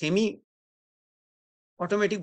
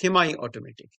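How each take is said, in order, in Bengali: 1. semi শব্দটি 'ee' ধ্বনি দিয়ে শেষ হয়। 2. semi শব্দটি 'eye' ধ্বনি দিয়ে শেষ হয়। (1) "সেমি অটোমেটিক বলা যাবে না" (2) "আমেরিকানকে সবকিছু আই করতে হবে"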